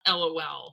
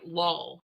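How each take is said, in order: First: It is said as three separate letters. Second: It is said as one word, rhyming with 'crawl'. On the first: "not LOL" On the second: "my LOL would be L A W L, like lol"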